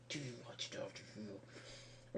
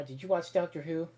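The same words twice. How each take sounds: First: Slow whispered repeat; hushed, slow conspiratorial whisper; whispered aside. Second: Said in the usual way. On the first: Real, not acted. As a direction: whisper it to yourself, slowly. Repeated question, second whispered.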